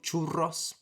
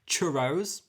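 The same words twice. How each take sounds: First: It is said with a Spanish accent. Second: It is said with an English accent.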